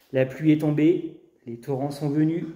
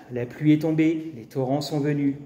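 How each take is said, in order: No difference in how they are said.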